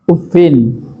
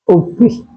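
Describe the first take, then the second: First: The word ends with 'i' plus a final 'n'. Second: The word ends with a plain 'i' vowel. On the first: "Imam Nafi' Hafs dibaca kasrafanya. Ma tanwinin" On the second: "dibaca kasrafanya min wa tanwinin dibaca tak tanwin"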